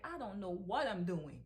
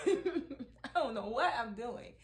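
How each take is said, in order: First: Laughing helplessly at herself. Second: Louder and slower, laughing it out; laughing loudly. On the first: Retold or imitated. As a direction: say it through a laugh, at a loss. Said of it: "sometimes I'm like". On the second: Real, not acted. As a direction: laugh the words out, giving up.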